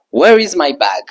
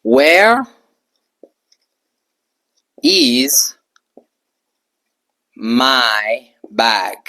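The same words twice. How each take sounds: First: Said in the usual way. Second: Slow model sentence. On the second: Shown as a demonstration. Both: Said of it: "je peux dire".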